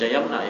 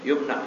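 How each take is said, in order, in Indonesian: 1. Vokal pertama terdengar seperti 'a'. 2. Vokal pertama terdengar seperti 'u'. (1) "jangan baca yamna ya" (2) "Bagusnya apa? Yumna"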